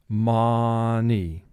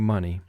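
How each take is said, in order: First: The first vowel is an exaggerated open 'ah'. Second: The first vowel is a relaxed, natural 'uh'. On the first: "we're going to exaggerate the pronunciation slightly and say ma" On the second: "in conversation we say money"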